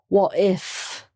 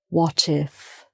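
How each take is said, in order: First: The T is dropped, leaving a break. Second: The T is pronounced and linked to the vowel. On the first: The speaker calls it wrong. "with the T missing" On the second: The speaker calls it right. "run the two words together"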